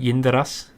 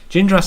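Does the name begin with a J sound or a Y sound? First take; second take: Y sound; J sound. First: The name begins with a Y sound. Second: The name begins with a J sound. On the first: "my German instinct would tell me to say Yin" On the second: "is how I'd pronounce it in English"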